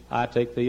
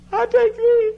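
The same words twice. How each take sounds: First: Said in the usual way. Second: Very high, loud squeal; squealing bride. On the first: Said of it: "Would you say, please". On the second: Retold or imitated. Bride squealing her vow at the wedding, high and loud. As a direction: shriek the vow with glee. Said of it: "And she said".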